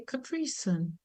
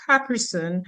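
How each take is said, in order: First: Capri Sun stressed on the second syllable; American pronunciation. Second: Capri Sun with stress on CAP; Dominican pronunciation. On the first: Linguist shows what the kids say, American pronunciation. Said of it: "pronouncing it like Americans". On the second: Linguist repeats caller's version, Dominican pronunciation. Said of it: "you have your Dominican pronunciation". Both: Shown as a demonstration.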